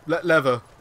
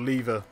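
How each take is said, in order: First: The word is said in an American accent. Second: The word is said in a non-American accent. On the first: "Americans say leather. Lever, don't they?" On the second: "Or lever, as we say"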